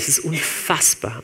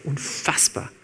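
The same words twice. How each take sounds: First: Said in the usual way. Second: Unfassbar whispered, softer, voiceless. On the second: Real, not acted. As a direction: repeat unfassbar as a hushed whisper. (unfassbar geflüstert)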